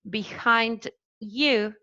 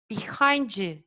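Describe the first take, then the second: First: The d and y sounds stay separate. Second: The d and y merge into a j sound. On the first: "Instead of saying behind" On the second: "you say behind you"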